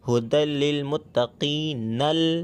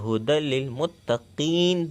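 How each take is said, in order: First: The last word runs on, ending in '-nal'. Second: The last word stops short, ending on 'n'. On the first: The reader continues into the next verse without pausing. "अगर आप वक्फ नहीं करेंगे ... हुदल लिल मुत्तकीनल पढ़ा जाएगा" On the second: The reader pauses at the end of the verse. "हम वक्फ करेंगे तो हुदल लिल मुत्तकीन पढ़ेंगे"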